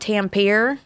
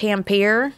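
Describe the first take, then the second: First: The name is said in the speaker's former way. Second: The same.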